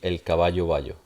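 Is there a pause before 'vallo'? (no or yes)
no. It runs on smoothly with no pause before vallo. "this would normally be"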